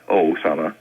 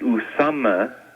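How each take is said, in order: First: The name begins with an 'oh' vowel. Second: The name begins with an 'oo' vowel. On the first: The speaker calls it wrong. "not Osama" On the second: The speaker calls it right. "in the proper pronunciation, is U"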